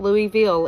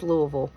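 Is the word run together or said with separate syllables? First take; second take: separate; run together. First: The syllables are said separately and fully. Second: The syllables are run together and reduced. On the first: The speaker calls it wrong. "it is not" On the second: The speaker calls it right. "Everything is ran together"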